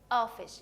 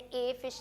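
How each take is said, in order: First: The article is said as a short 'uh'. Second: The article is said as a full 'ay'. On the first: The speaker calls it right. "यहाँ मैंने इसको अ बोला है" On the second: The speaker calls it wrong. "ए fish नहीं कहा"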